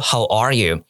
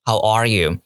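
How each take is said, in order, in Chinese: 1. 单词 'are' 带主要重音。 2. 单词 'are' 带主要重音。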